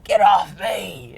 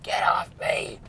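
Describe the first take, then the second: First: High, slow retold yell, drawn out; pushing helpers away with a slow high yell; defiant shout. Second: Urgent unvoiced hiss, pitched up; breathless whispered protest; defiant hiss. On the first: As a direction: bellow it at the firefighters. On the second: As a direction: hiss it like a man fending people off. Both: He was so defiant.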